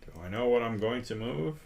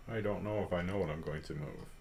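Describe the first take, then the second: First: Said in the usual way. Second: Fast, much softer low mutter; muttering to himself. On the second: Real, not acted. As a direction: mumble it under your breath, quickly. Muttered to himself right after.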